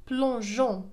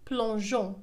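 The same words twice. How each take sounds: First: The consonant before the ending is a soft J. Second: The same.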